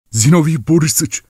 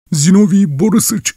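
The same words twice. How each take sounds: First: High panicked calling of the name; terrified cry. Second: Zinovy shrieked even higher and louder; terrified cry. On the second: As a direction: scream Zinovy in rising terror, much higher. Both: A narrator's reading. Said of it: "diye mırıldanıyordu".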